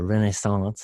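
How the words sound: It is said with a French accent.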